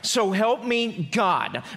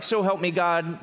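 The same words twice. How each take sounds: First: It is said as an urgent, exclaimed prayer. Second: It is said as a flat, formal statement.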